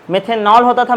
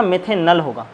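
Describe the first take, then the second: First: Put-on methanol with the old ending ॉल marked, then होता rising; first half of a contrast, set up the old name; the name you knew, rising; stress on old ending. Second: मेथेनल said with a falling tune on the new ending अल; the answer, settled and falling; stress on new ending. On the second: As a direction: land the new name with a fall. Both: Shown as a demonstration.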